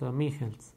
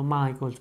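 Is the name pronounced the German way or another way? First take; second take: German; non-German. First: The name is said with a German pronunciation. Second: The name is said with a non-German pronunciation. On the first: The speaker calls it right. "es un alemán, se pronuncia Robert Michels" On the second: The speaker calls it wrong. "lo pueden encontrar pronunciado Michaels, pero no"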